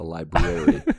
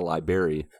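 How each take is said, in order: First: Both r sounds are clearly pronounced. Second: The first r sound is dropped. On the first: The speaker calls it right. "There's two R's separated. By an A" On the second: The speaker calls it wrong. "It's not a library"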